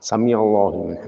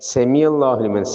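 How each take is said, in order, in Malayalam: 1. ഒന്നാമത്തെ സ്വരാക്ഷരം a പോലെയാണ് ഉച്ചരിക്കുന്നത്. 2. ഒന്നാമത്തെ സ്വരാക്ഷരം e പോലെയാണ് ഉച്ചരിക്കുന്നത്. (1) "ഫതഹ് ചെരിഞ്ഞു പോകും, സൂക്ഷിക്കണം" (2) "സേ ഇങ്ങനെ അക്ഷരം അറബിയില്ല"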